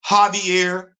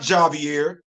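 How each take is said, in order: First: The name has a Spanish pronunciation. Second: The name has an English pronunciation. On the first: The speaker calls it right. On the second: The speaker calls it wrong. "It's not"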